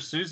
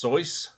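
First: The vowel sounds like the oo in moose. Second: The vowel sounds like the oy in boy. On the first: This is the common way people say the name. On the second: This is supposedly the original way to say the name.

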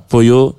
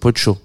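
First: The double L is not said as 'ch'. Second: The double L is said as 'ch'. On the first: The speaker calls it wrong. "j'ai fait une bêtise" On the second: The speaker calls it right. "si tu veux faire l'accent argentin, le double L se prononce tch"

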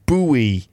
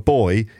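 First: It is said the American way, like Bowie. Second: It is said the British way, like boy.

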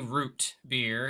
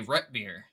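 First: The first word has a long 'oo' vowel. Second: The first word has a short 'uh' vowel. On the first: "they don't say root beer in Ohio" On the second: "they say rut beer"

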